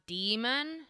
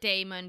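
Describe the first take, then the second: First: It sounds the same as the word demon. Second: It sounds different from the word demon. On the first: The speaker calls it wrong. "it is arguably pronounced demon" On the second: The speaker calls it right. "I pronounce it daemon because it is so obviously written that way"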